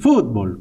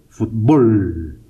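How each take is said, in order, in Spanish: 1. El acento está en la primera sílaba. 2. El acento está en la segunda sílaba. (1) "como lo dicen los argentinos, por ejemplo. Fútbol, con acento en la U" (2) "decimos fútbol, con acento en la O"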